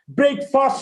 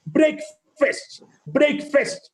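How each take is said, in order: First: "Breakfast" as "brake-fast", open second vowel; wrong pronunciation. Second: "Breakfast" ending in "fest"; right pronunciation. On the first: Teacher demonstrating the error, wrong pronunciation. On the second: Teacher modelling the word, right pronunciation. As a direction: say "breakfast" as "brek-fest", lightly. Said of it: "is the right pronunciation". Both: Shown as a demonstration.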